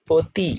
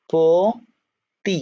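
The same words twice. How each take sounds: First: Said in the usual way. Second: "পতি" slowly split in two, the ও held long; ও-কার উচ্চারণ. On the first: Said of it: "এটাই বলি". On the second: Shown as a demonstration. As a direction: sound out "পতি" syllable by syllable, po... ti. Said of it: "ও উচ্চারণ করলাম". ("পতি" ধীরে ভেঙে, ও টেনে)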